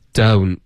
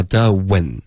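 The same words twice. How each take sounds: First: "don't" drawn out as one syllable; correct joined vowel. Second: "的吻" as two syllables, duh-wen; broken-up mispronunciation. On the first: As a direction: keep "don't" in one rounded glide. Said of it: "你的嘴唇不能分开". (“don't”一个音节，慢慢连着发) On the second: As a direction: mimic a learner splitting don't into "的吻". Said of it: "不要发的吻". (模仿错误发音，把don't拆成“的吻”) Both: Shown as a demonstration.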